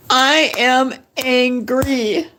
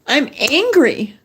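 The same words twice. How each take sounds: First: I am angry, slow, with the weight on am; stress on AM. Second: Said in the usual way. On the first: Shown as a demonstration. Telling her viewers she is fed up, slow, stressing am. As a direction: lean hard on the word am, slow and firm.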